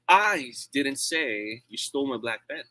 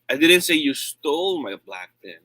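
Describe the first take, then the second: First: The word "I" carries the main stress. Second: The word "stole" carries the main stress. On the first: Someone else said it. "It means I'm not the one who said that" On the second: It was borrowed, not stolen. "I said you borrowed it"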